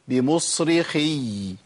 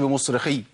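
First: The final ya sound is clearly held and lengthened. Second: The final ya sound is dropped or cut off. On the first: The speaker calls it right. "لازم اقول بمصرخي" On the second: The speaker calls it wrong. "ما اقولش بمصرخي. في ناس كتير قوي ما بتجيبش ياء اصلا"

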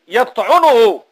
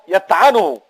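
First: The middle vowel of the verb is 'u'. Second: The middle vowel of the verb is 'a'. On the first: It means stabbing with a weapon. The speaker calls it right. "ويقال يطعنه بخنجيره" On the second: It means attacking someone's lineage. The speaker calls it wrong. "ولا يقال"

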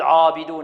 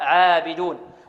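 First: The first syllable is heavy and thick. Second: The first syllable is light and thin. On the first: The speaker calls it wrong. "لا نقول عابدون" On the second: The speaker calls it right. "كذلك مرققة"

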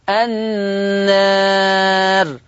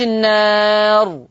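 First: The long a vowel leans slightly toward e. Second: The long a vowel is fully open. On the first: The speaker calls it right. "النار النار هكذا" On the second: The speaker calls it wrong. "ما قولش النار زي حفص"

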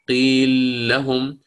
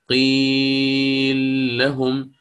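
First: The vowel in the first word is short. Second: The vowel in the first word is medium length. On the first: "القصر" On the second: "والتوسط"

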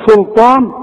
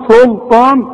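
No difference in how they are said.

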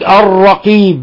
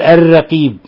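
First: The r sound is full and heavy. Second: The r sound is thin and light. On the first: The speaker calls it right. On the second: The speaker calls it wrong.

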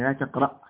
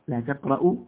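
First: The final hamza has no vowel after it. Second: The final hamza is followed by a u vowel. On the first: It forbids the action. "والأصل أن الهمزة ساكنة" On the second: It states the action cannot happen. "هكذا يضم الهمزة"

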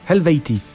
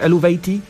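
First: The name starts with an h sound. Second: The name starts directly with a vowel. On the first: "Niektórzy twierdzą, że jednak Helveiti powinno się to wymawiać" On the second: "tak jak się pisze"

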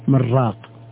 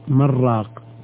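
No difference in how they are said.

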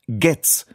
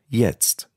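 First: The word begins with a hard G sound. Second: The word begins with a Y sound. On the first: This is how people from the Sauerland say it. "der Sauerländer sagt oft Getz" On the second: This is the standard form. "statt Jetzt"

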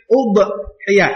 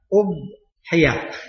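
First: The middle consonant bounces with an added echo. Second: The middle consonant is smooth, with no bounce. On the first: The speaker calls it wrong. "Tidak boleh ada kol-kolahnya ya, karena kadang-kadang orang menyebutnya umhiyah, itu salah" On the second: The speaker calls it right. "Huruf yang paling sulit untuk diucapkan"

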